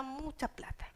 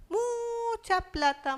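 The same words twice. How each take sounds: First: "mucha plata" dropped to a soft murmur; quiet aside. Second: "Mucha plata" drawn out slowly and higher; emphatic. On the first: Preacher echoing the debt to himself, a soft aside. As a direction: let "mucha plata" fall away, much softer. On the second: Preacher stressing the huge debt to the congregation, slow and high. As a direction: lean hard on "Mucha plata", stretching each word. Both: Acted.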